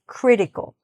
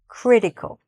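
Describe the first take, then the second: First: The middle T is soft, barely pronounced. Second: The same.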